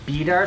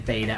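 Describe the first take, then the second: First: The first syllable sounds like 'bee'. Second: The first syllable sounds like 'bay'. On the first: "I've heard Beater said a lot more in the, like, um, the context of, like, positrons" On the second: "I'll say beta. I'll say salt bay, bay, blade, bay, ta"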